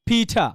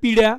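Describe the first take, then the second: First: The middle consonant is a clear, hard t. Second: The middle consonant sounds like a soft r. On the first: "এই পিড়ারে বলবেন কি, পিঠা" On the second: "আর ওনারা পিড়া"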